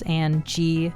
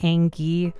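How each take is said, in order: First: The ending of the name sounds the usual way. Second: The ending of the name sounds like 'gi'. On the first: The name is said as intended. The speaker calls it right. "this is Angie" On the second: The game misreads the typed name. The speaker calls it wrong. "the game was pronouncing the end like Gi"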